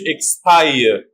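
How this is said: It is said in a British accent.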